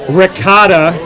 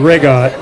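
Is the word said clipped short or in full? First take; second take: full; clipped. First: The word is said in full with a final vowel. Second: The word is clipped, ending without the final vowel. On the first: The speaker calls it wrong. "It is not ricotta" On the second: The speaker calls it right. "It's called rigot"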